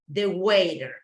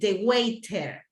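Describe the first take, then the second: First: The T in the middle is pronounced softly. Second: The T in the middle is pronounced strongly. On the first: "in English from North America" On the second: "people from U K, they pronounce in a really strong way the letter T"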